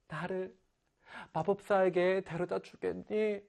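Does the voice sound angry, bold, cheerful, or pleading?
pleading. It is said as an earnest, pleading request.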